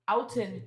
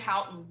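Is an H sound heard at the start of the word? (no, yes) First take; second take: no; yes. First: The word begins with a vowel, no H. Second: The word begins with an audible H sound. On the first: "the French first off would not pronounce the H" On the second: "I'm sure it's Van Houten"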